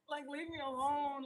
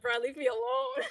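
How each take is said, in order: First: Said in the usual way. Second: Mock panicked plea. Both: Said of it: "I'm like".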